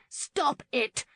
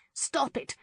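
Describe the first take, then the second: First: Even higher, pressing cry as she pushes him down; second, higher plea to stop. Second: High, urgent cry to break up the fight; high cry, as she jumps between them. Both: A narrator's reading. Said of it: "Lauren cried".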